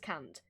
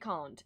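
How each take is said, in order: First: It is said in a northern English accent. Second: It is said in a posh English accent. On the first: The speaker calls it wrong. "No one says can't" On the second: The speaker calls it right. "there's one word that we all pronounce the quote-unquote posh way"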